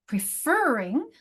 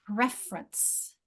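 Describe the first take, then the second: First: "Preferring" slowly, swooping up on FER; slow pre-FER-ring for "Preferring"; second-syllable stress. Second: "preference" slowly, as PREF-er-ence; slow "preference", weight up front; first-syllable stress. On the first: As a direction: stretch a high FER in "Preferring". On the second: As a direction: lean on PREF in "preference", then drop away. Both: Shown as a demonstration. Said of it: "notice the different stress patterns".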